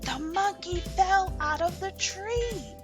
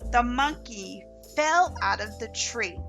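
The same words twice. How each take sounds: First: It is read with strong, excited emotion. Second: It is read in a flat, neutral voice.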